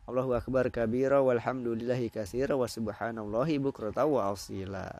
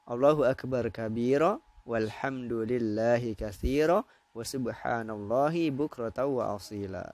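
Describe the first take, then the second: First: It is recited at a quick, fast pace. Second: It is recited at a slow, careful pace.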